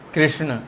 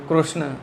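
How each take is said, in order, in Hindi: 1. यह अक्षर 'ri' की ध्वनि के साथ बोला जाता है। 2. यह अक्षर 'ru' की ध्वनि के साथ बोला जाता है। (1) "संस्कृत में री बोलते हैं" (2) "गुजराती में कृष्ण हृदय ऐसा बोलते हैं"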